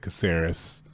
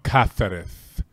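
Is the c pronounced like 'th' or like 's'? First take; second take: s; th. First: The c is said like 's', not Spain-style. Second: The c is said like 'th', Spain-style.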